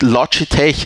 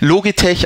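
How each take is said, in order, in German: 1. Der Name wird englisch ausgesprochen. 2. Der Name wird deutsch ausgesprochen. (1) "dass ich quasi das Englische ausspreche" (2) "ich sage Logitech ab sofort"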